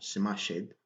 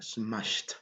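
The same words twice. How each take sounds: First: The ending is not said as a t sound. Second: The ending is said as a t sound. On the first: The speaker calls it wrong. "et non smashed" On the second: The speaker calls it right. "le passé va nous donner uh, smashed"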